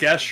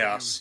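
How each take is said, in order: First: The word is said with an 'esh' sound. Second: The word is said with an 'as' sound. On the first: The speaker calls it right. "It's pronounced Gesh" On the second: The speaker calls it wrong. "I thought it was pronounced gas"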